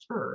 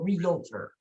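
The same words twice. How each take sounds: First: The word is said with two syllables. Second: The word is said with three syllables. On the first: The speaker calls it right. "You want it to be two syllables" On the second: The speaker calls it wrong. "don't want it to be three syllables"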